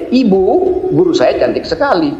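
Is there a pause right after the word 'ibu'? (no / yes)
yes. There is a pause right after 'ibu'. The speaker tells their mother that the teacher is very pretty. The speaker calls it right. "Jadi saya memberitahu pada ibu saya bahwa guru saya cantik sekali"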